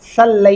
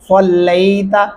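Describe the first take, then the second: First: The first s sound is light. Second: The first s sound is heavy. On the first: The speaker calls it wrong. "نہیں کریں گے" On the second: The speaker calls it right. "صاد صلیت"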